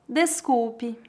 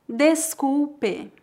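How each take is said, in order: First: It is said at natural speed. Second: It is said very slowly. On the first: "2 vezes mais naturalmente" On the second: "uma vez bem devagar"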